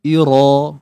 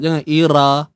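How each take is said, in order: First: The ra sounds full, with the tongue raised. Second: The ra sounds thin, with the tongue lowered. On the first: The speaker calls it right. "Kena angkat pangkal lidah kita untuk dapatkan sifat tebal" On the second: The speaker calls it wrong. "jangan ira. Tak mau ira"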